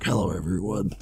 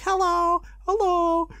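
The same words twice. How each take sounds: First: Much lower, grown-man greeting; middle-aged man's voice. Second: Very high mock child greeting; kid voices. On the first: Acted. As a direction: imitate a forty-five-year-old man. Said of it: "sounding like a forty-five-year-old man". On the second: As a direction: imitate little kids saying hello. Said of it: "all the other people were like".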